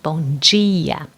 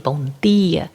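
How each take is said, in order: First: The d in dia sounds like a j. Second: The d in dia is a plain d sound. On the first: "in other areas we say G, G, like this sound" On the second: "In some areas of Brazil, yes, they say bom dia"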